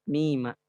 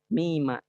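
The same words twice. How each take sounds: No difference in how they are said.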